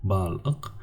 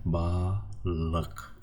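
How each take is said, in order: First: "Bal-ık" broken after the l; wrong syllable split. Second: "balık" slowly split as "ba", then "lık"; correct syllable split. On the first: Teacher shows students an incorrect division, "Bal-ık" split after the l. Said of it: "This is not correct". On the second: Teacher shows students the right division, "balık" slowly as ba-lık. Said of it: "That's why we divide". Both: Shown as a demonstration.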